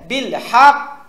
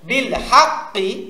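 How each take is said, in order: First: It ends in a strong bounced stop. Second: It ends with a full final vowel. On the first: The reader stops on this word. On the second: The reading continues without stopping.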